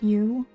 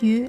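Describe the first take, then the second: First: The word is said long and full. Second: The word is said short and reduced. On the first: This is the usual fuller form. "you is a bit longer" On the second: This is how it comes out in fast speech. "if I'm talking really fast, it changes into you"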